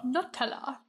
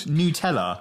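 First: "Nutella" said nuh-TELL-uh, with a weak first syllable; "Nutella" with a schwa first syllable and the stress on TELL; American Nutella. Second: "Nutella" said NOO-tella, with the first syllable like new; "Nutella" with a clear "new" at the start and the t sounded; British Nutella. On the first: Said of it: "What is the Tella?". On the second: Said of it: "that's what it's called". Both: Shown as a demonstration.

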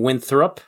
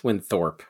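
First: Winthrop said as win-thrup, wrong; correcting friend's Winthrop as win-thrup; wrong pronunciation. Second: Winthorpe said win-thorpe, stressing thorpe; correct pronunciation. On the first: Friend mocks his mispronounced name, Winthrop as win-thrup. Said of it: "You keep saying Winthrop". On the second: Setting friend straight on the name, Winthorpe as win-thorpe. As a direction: Winthorpe ending firmly in thorpe. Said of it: "but it's Winthorpe". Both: Shown as a demonstration.

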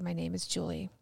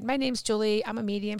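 First: Hushed, lower, deliberate admission; emotional. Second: Brisk, throwaway self-introduction; flippant. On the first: Student repeating after her advisor, quietly emotional. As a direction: say it softly and mean it. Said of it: "It was very emotional". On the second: Student brushing off her advisor's exercise, flippant. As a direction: toss it off as if it means nothing. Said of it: "I very flippantly said". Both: Retold or imitated.

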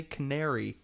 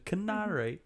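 First: Said in the usual way. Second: Mock British "Canary", pitched up and soft; mock British accent. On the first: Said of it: "the way you say canary". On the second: Joking about perfecting a fake accent, mock British. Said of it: "perfect the way you say canary".

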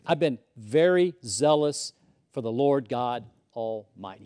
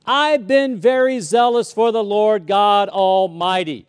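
First: Said in the usual way. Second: Louder, slow, proud; loud self-righteous boast. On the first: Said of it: "Notice what he says. He says". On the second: Retold or imitated. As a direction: declare it like a resume. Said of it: "He's like".

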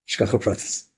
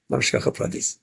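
First: Said in the usual way. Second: Breathy whispered repeat of Shkacha Pratis; hushed whispered echo. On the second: Shown as a demonstration. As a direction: whisper it to yourself in awe. Repeats the phrase, now whispered.

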